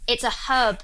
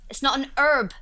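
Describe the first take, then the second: First: "herb" with its H clearly pronounced; H sounded. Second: "herb" as American "erb", H dropped; mock the H-less "herb", starting on the vowel; silent H. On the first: Briton corrects American, "herb" with the H pronounced. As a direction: stress "herb", starting on an H. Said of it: "It has a H". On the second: Briton mocks American usage, "herb" said "erb" without H. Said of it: "enjoying you saying herb". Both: Shown as a demonstration.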